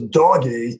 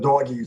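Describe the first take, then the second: First: Said insistently, like asking to be given something. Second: Said plainly, like labeling something in view. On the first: The child wants his dog toy to hold. "I want my doggy toy to hold" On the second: The child is pointing out a dog he sees. "he's just pointing to the doggy sitting on the carpet"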